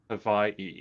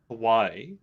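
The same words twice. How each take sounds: First: The middle consonant is a V sound. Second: The middle consonant is a W sound.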